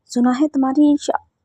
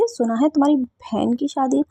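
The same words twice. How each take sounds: First: Said in the usual way. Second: Slowed, careful clarifying tone; slow correction. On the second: Acted. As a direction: spell it out so she can't mishear. Corrects herself, spelling it out.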